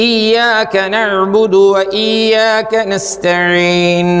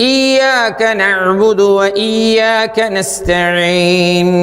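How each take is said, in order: No difference in how they are said.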